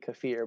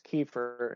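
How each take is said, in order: First: The word is said the non-Southern way. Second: The word is said the Southern US way. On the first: This is how people elsewhere may say it. "outside in the rest of the world, it might be kefir" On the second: This is how people in the South say it. "if you're in the South, it's kefir"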